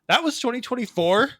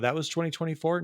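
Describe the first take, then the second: First: It is said with lively, expressive inflection. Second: It is said flatly, without inflection. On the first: The speaker calls it right. "The inflection is required" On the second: The speaker calls it wrong. "You can't just go"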